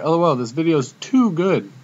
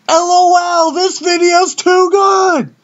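First: It is read flatly, without much emotion. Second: It is read with lively, excited emotion.

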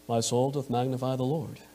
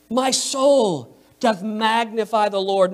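First: It is read in a stiff, formal way. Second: It is read in a joyful, lively way. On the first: "we could read this all formal like" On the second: "But she's full of joy"

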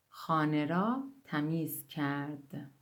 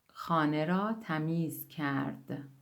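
The two takes are said the same way.

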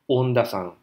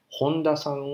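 First: The name starts with no h sound. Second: The name starts with an h sound.

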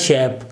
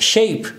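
First: The vowel is a steady long vowel without glide. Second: The vowel glides from A toward E. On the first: The speaker calls it wrong. "it's not shape" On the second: The speaker calls it right. "It's shape"

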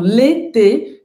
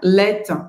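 First: Both e vowels are sounded as clear 'ay' sounds. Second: The e vowels are reduced, giving one short syllable. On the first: The speaker calls it right. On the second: The speaker calls it wrong.

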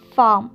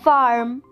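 First: The R before the M is not pronounced. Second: The R before the M is pronounced. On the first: "British accent is non-rhotic" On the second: "American accent is rhotic"

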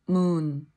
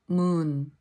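Both takes have the same delivery.

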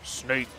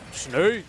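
First: The voice falls at the end of the word. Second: The voice rises at the end of the word. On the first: "he doesn't say like Snake" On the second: "why has he got rising intonation for?"

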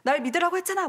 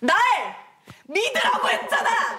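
First: It is said with restrained, modest intensity. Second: It is said with exaggerated, full intensity.

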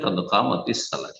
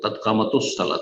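First: The vowel after 'qamat' is an i sound. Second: The vowel after 'qamat' is a u sound. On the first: This is the standard classical pronunciation. The speaker calls it right. "শুদ্ধ হচ্ছে" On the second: This is a regional dialect pronunciation. The speaker calls it wrong. "অনেক আরবরা পড়ে ... তাদের আঞ্চলিক ভাষা, সেটি ভুল"

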